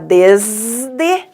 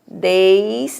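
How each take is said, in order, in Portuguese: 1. A primeira vogal é um e simples. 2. A primeira vogal desliza como ditongo ei. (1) "então vai ter que ter esse Z" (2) "aí aqui tem o ditongo"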